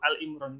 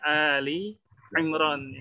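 First: It starts with a bare 'Al' and no vowel. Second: It starts with 'Ali', ending in an 'ee' vowel. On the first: The speaker calls it wrong. "Ini kadang ada yang salah sebut gitu" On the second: The speaker calls it right. "Yang benar adalah Ali Imran"

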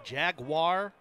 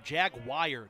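First: The word does not end like 'wire'. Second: The word ends with a sound like 'wire'. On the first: "Some people say Jaguar or Jagwire" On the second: "Jagwire isn't really right"

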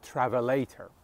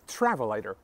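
First: The stress is on a later syllable. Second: The stress is on the first syllable. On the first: The speaker calls it wrong. "not travelator" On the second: The speaker calls it right. "the stress is on the first syllable"

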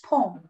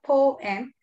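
First: The word is said quickly and subtly. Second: The word is said slowly and drawn out. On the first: The speaker calls it right. "It's quick, it's subtle" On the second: The speaker calls it wrong. "It's not poem"

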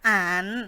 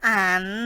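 Both takes have the same delivery.

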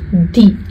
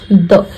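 First: The word ends with a long 'ee' sound. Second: The word ends with a short 'uh' sound. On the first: The next word starts with a vowel sound. "When T-H-E is followed by a vowel sound, it becomes the" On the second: The next word starts with a consonant sound. "When T-H-E is followed by a consonant sound, it becomes the"

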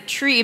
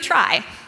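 First: The vowel is a long 'ee' sound. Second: The vowel is an 'eye' sound. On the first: The speaker calls it wrong. "could pronounce it tree" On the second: The speaker calls it right. "we're going to call them tries"

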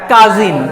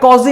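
First: The first vowel sounds open, like 'a'. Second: The first vowel sounds rounded, like 'o'. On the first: The speaker calls it right. "এটা কাজিন" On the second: The speaker calls it wrong. "কজিন না"

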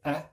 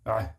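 First: The sound is a plain open vowel. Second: The sound is squeezed deep in the throat. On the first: The speaker calls it wrong. "If you say a, that's not ayn" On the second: The speaker calls it right. "It's in the throat area"

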